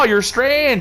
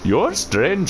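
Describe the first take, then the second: First: It is spoken in a Canadian accent. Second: It is spoken in an Indian accent. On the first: "just my regular Canadian accent" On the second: "Can I have the Indian tree?"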